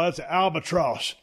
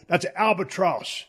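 First: It is said in a flat, unenthusiastic way. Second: It is said in a cool, confident way. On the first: The speaker calls it wrong. "You said them two different ways" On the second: The speaker calls it right. "let me say albatross like it'd be cool"

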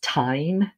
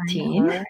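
First: The vowel sounds like 'eye'. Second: The vowel sounds like 'ee'. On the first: The speaker calls it right. "it's pronounced tyne" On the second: The speaker calls it wrong. "not teen"

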